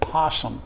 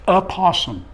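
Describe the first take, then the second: First: The word starts directly with the p sound. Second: The word starts with a short 'uh' vowel. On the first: "the O is silent and we don't even say it" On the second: "Technically, we should say U H"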